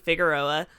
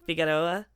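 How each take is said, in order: First: The name is said with an American English accent. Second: The name is said with an imitated Spanish accent. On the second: "I can't say it in the accent you're using, like"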